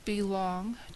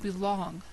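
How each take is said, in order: First: It is said as two separate words. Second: It is said as a single joined word. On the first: It will not take much time. "two words, as in it won't be long until we finish" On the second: To fit in. "one word"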